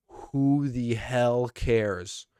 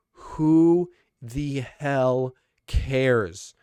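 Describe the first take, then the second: First: Slow, drawn-out dismissive question; exasperated. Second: Very slow and louder, fed up; louder exasperation. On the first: Fan ranting about a cringy gimmick, slow and exasperated. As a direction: stretch it out in disbelief. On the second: Fan repeats the rant, very slow, louder, fed up. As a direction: lean in harder the second time. Ranting about Natalya's gimmick. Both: Real, not acted.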